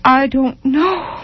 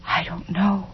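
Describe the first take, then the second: First: Slow, high, rising despair; anguished cry. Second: Soft, lost admission; helpless murmur. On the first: Tormented mother twisting the rompers, slow anguished rise. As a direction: draw it out higher in helpless anguish. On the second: Tormented mother answering her child, soft and helpless. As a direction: let it fall away quietly. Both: A narrator's reading.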